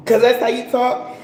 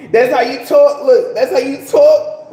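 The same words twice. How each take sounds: First: Said in the usual way. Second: Louder, pressing the line home; louder emphatic repeat. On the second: Shown as a demonstration. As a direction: punch "talk" louder each time. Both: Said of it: "talking like, speaking that way".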